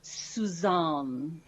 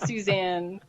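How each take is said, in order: First: "Suzanne" as soo-ZAHN, long open AH; joke pronunciation. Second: Said in the usual way. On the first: Pretend. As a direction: draw out "Suzanne" into a mock-fancy soo-ZAHN. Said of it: "only if you say it that way". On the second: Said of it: "No, I'm just kidding".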